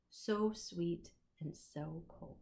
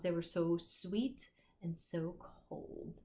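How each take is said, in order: First: Savoring slowly. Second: Savoring slowly again. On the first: Last line of poem read. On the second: Teacher repeats favorite line. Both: Shown as a demonstration.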